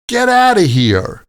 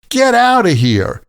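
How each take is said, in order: First: The words are run together in a casual way. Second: The words are run together in a casual way.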